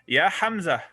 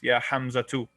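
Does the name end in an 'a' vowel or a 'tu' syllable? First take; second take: a vowel; tu syllable. First: The name ends on a plain vowel, no t. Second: The name ends with a pronounced t plus u. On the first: Speech stops at the end of the word. "no one ever says that because we end our speech here" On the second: This is the full classical form of the word. "it's actually Ya Hamza too, right? That's that's literally what it is"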